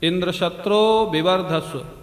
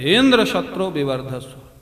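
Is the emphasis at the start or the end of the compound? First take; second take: end; start. First: The accent falls at the end of the compound. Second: The voice rises high at the compound's start. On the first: May a son grow who will kill Indra. The speaker calls it right. "बोलना चाहिए था अंतोदात्त" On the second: May a son grow who will be killed by Indra. The speaker calls it wrong. "पहले से आवाज ऊंची हो जाती"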